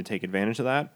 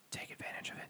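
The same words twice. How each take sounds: First: Said in the usual way. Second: Whispered aside, barely audible; conspiratorial whisper. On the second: Pretend. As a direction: slip it in as a secret, all breath. Covert aside after a disclaimer.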